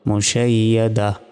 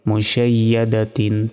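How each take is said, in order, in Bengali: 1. শব্দটি একটি নরম 'h' ধ্বনি দিয়ে শেষ হয়। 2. শব্দটি একটি নাসিক্য 'tin' ধ্বনি দিয়ে শেষ হয়।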